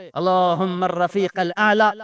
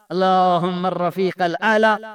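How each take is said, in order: Both takes have the same delivery.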